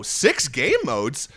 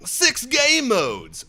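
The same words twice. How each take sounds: First: Said in the usual way. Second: High, very slow, drawn-out announcement; mock announcer. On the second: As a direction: stretch it out like a hype announcer. Reads feature as mock announcer.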